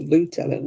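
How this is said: It is pronounced the American way. This newer way came from America. "That comes from America"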